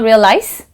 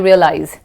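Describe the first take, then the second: First: The middle consonant is a hissing S sound. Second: The middle consonant is a buzzing Z sound. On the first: The speaker calls it wrong. "It's not realize" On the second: The speaker calls it right. "S E is pronounced as Z E"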